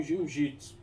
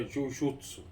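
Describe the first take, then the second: First: "Jiu-Jitsu" with ji in the second part; Brazilian pronunciation. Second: "Jujutsu" with a u sound in jutsu; Japanese pronunciation. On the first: Comparing it with Wushu, "Jiu-Jitsu" said as Brazilians say it. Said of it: "a gente aqui não aprendeu". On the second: Showing the Japanese original, "Jujutsu" pronounced with jutsu. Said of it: "Em japonês é". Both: Shown as a demonstration.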